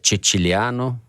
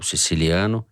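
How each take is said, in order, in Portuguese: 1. O nome é dito de um jeito à italiana. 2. O nome é dito de um jeito simples, em português.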